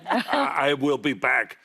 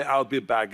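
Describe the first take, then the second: First: "I will" as two full words; uncontracted I WILL. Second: "I'll" run into one syllable; contracted I'LL. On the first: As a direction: stretch out "I", then a full "will". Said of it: "it sounds weird". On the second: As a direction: say "I'll" short, as one word. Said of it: "No, just say".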